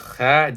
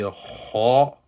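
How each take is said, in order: First: The letter is pronounced light, without a full mouth. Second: The letter is pronounced heavy, with a full mouth. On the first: The speaker calls it wrong. "That is not a full mouth" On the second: The speaker calls it right. "you have pronounced the letter with full mouth"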